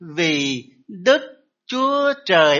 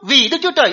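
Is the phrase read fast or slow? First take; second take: slow; fast. First: The phrase is read slowly and haltingly. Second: The phrase is read quickly and smoothly. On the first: A small child is just learning to say it. "lúc mà mình nói chập chững" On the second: An older child already knows it well. "đến khúc lớn lên đọc nhanh hơn chút"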